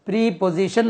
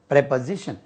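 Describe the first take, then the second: First: The first syllable has a long 'ee' vowel. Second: The first syllable has a short 'eh' vowel. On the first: The speaker calls it wrong. "प्रीपोजिशन नहीं होता है" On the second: The speaker calls it right. "इसका तलफुज जो है प्रेपोजिशन"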